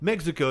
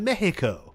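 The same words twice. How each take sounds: First: It is said with an anglicized English pronunciation. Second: It is said with the local Spanish-style pronunciation. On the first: The speaker calls it wrong. "You don't say" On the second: The speaker calls it right. "you say Mexico"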